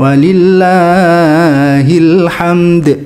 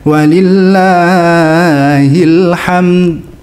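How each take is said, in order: First: The final d ends with an audible bounce. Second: The final d has no audible bounce. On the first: "boleh dikolkolahkan" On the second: "nggak dikolkolahkan"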